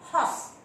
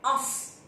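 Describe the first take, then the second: First: The word starts with a clear h sound. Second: The word starts without an h sound. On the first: The speaker calls it right. "A horse, h sound" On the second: The speaker calls it wrong. "You do not say os, is wrong"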